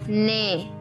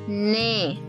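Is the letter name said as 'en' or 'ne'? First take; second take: ne; ne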